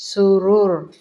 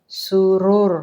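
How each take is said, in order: No difference in how they are said.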